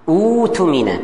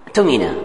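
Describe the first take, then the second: First: It begins with a glottal stop and vowel. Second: It begins directly with the t sound. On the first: Recitation starts from this word. "kalau mulai" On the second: Recitation continues from the previous word. "Kalau sambung? ... Tak ada hamzah lagi"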